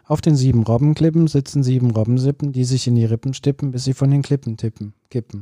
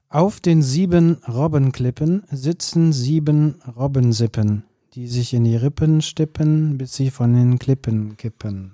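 First: It is said faster than before. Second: It is said at a normal pace.

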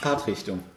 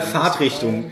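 First: The word is said with an English accent. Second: The word is said with a German accent.

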